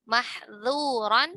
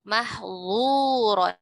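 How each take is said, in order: First: The sounds are said thin and light. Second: The sounds are said thick and heavy. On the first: The speaker calls it right. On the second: The speaker calls it wrong.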